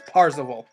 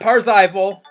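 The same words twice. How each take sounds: First: The name sounds like Percival. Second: The name does not sound like Percival. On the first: The speaker calls it right. "It's Parzival, like Percival" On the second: The speaker calls it wrong. "Not Parzival"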